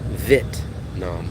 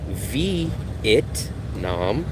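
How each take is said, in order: First: The first syllable has one short vowel, vit. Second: The first syllable has two vowel sounds, vee-it. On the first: This is how locals say it. "They say Vit. They leave out the E" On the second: This is not how locals say it. "they don't say V it nom"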